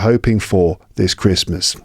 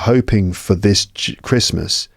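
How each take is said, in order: First: The word 'for' is full and strong. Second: The word 'for' is reduced and weak. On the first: The speaker calls it right. "It should be" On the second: The speaker calls it wrong. "It shouldn't be"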